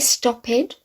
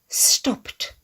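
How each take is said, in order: First: The word ends with an extra 'id' syllable. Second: The word ends with a plain 't' sound. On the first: The speaker calls it wrong. "Can we say stop head? No" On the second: The speaker calls it right.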